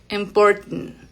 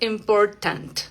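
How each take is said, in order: First: The T is stopped in the throat, sounding nasal. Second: The T is fully released with an open vowel. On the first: The speaker calls it right. "la T aquí detenida como sonido glotal" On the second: The speaker calls it wrong. "no decimos important, no, con la A abierta"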